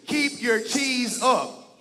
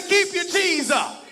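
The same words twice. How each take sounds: First: Slow, loud chant of the motto; chanted, lead the crowd in the call; chanted, slow shouted call to the audience. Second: Even louder, higher, slow shouted chant; shouted louder after he asks for more. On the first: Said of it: "Now say it with me". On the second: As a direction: belt it for the back row. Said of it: "I need it louder". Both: Real, not acted.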